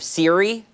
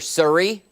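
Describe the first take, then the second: First: The first vowel sounds like in Miri. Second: The first vowel sounds like in Murray. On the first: "instead of Siri" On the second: "I've always called her Surrey"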